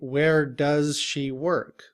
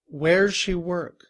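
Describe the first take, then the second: First: The word 'does' is pronounced fully and separately. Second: The word 'does' shrinks to a z joined to where. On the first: "In reduced form, we do not say" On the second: "we would just say, where's"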